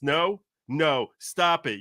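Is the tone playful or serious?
serious. It is said in a flat, serious tone.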